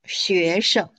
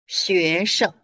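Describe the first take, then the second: First: The last syllable is light and toneless. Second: The last syllable is light and toneless.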